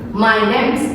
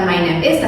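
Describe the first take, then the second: First: The verb is contracted onto name. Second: The verb is said as a separate full word. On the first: The speaker calls it right. "contraction lagi" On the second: The speaker calls it wrong. "bukan my name is"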